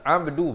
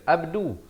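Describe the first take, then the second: First: It begins with a tight throat consonant. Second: It begins with a plain open vowel. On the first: The speaker calls it right. "huruf ain kita baca abdu" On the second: The speaker calls it wrong. "bukan abdu"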